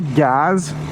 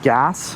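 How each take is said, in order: First: The word ends with a z sound. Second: The word ends with an s sound. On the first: A friend says it this way. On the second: This is the usual way to say it.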